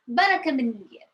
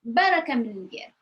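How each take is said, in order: First: It is said with a natural, expressive changed tone. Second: The same.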